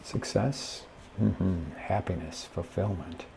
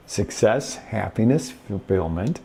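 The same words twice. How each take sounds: First: Unenthused. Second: Upbeat. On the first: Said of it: "You might be going". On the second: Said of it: "You see the difference?". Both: Shown as a demonstration.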